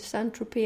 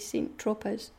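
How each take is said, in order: First: The name is pronounced the usual way. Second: The name is pronounced literally, as spelled. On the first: The speaker calls it right. "instead of saying Saint-Tropez" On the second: The speaker calls it wrong. "I used to say Saint-Tropez. I'm very literal"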